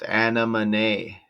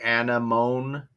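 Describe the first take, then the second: First: It is said as separate parts, Anna Monet. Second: It is said like the flower word anemone. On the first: The speaker calls it right. "that's how it says it's pronounced" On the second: The speaker calls it wrong. "Originally, I thought it was Anemone, which sounded like Ronin"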